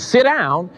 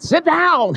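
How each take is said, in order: First: It is said calmly and plainly. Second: It is said emotionally and forcefully.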